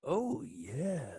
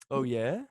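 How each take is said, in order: First: It sounds angry and full of hate. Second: It sounds excited and eager.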